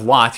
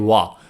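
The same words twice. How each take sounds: First: The word is said fully with its final sound. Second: The word is clipped, its final sound reduced. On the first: "Instead of what" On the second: "you say what"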